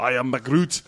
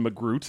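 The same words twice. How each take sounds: First: A lightly done, not at all Scottish Groot; mock Scottish accent. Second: Said in the usual way. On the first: Host doing Groot's Scottish cousin, bad Scottish accent. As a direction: roll out I am Magroot in a bad Scottish burr. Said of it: "that not at all Scottish accent that I used". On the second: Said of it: "Groot's Scottish cousin".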